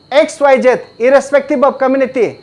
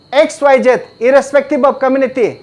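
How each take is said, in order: No difference in how they are said.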